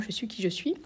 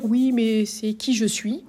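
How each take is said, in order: First: Said in the usual way. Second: Slow, doubting objection; mock objector. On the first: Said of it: "Voilà". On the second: A sceptic's slow objection to the teacher. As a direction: voice a sceptic's reply. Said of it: "on peut dire".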